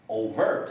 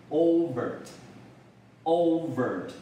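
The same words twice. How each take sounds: First: "overt" as o-VERT; short O, punched VERT in "overt"; "overt" with the weight on the end; stress on second syllable. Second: "overt" as O-vert, long opening O; stress on first syllable. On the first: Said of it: "当然你有可能看到". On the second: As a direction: lean on the O in "overt". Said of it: "这个重音在第一节". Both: Shown as a demonstration.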